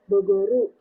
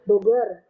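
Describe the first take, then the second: First: An extra u vowel is added at the end. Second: It ends in a consonant, no added vowel.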